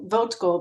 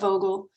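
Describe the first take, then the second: First: The name is said with a T sound. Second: The name is said without a T sound. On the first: The speaker calls it wrong. "In my mind, I pronounce it Plant Vogel, Vogtle, because that's how you spell it" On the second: The speaker calls it right. "but the T is silent, so it's Plant Vogel"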